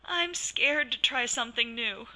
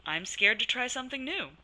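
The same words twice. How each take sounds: First: Scared and worried. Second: Cheerful positive. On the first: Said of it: "if I sounded scared and worried". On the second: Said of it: "Brandy used a cheerful, positive voice". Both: Shown as a demonstration.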